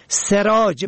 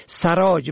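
First: سراج said "seraj"; short e after s in سراج; kasra on first. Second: سراج said "saraj"; fatha on first. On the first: Teacher shows سراج for "light", pronounced seraj. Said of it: "به کسر اول". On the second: Teacher shows سراج for "saddler", pronounced saraj. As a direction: open short a after s in سراج. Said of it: "به فتح اول". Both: Shown as a demonstration.

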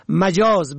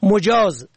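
First: مجاز said "majaz"; fatha on first. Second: مجاز said "mojaz"; rounded o after m in مجاز; zamma on first. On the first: Teacher shows مجاز for "figurative", pronounced majaz. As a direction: open a after m in مجاز. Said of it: "به فتح اول". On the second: Teacher shows مجاز for "permitted", pronounced mojaz. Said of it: "به ضم اول". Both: Shown as a demonstration.

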